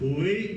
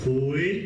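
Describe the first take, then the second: First: The syllable is said on a higher tone. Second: The syllable is said on a low tone. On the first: It means making somebody a person. The speaker calls it wrong. "they pronounce it Kui with the third from bottom" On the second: It refers to the true, real people. The speaker calls it right. "just the second from bottom, that's the lowest one"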